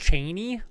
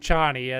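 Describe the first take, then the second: First: The name sounds like the surname Cheney. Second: The name does not sound like Cheney. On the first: This is how the author intended it. "intended it to be pronounced Cheney, like Dick Cheney" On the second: This is the habitual way of saying it. "I'm gonna keep saying Chani"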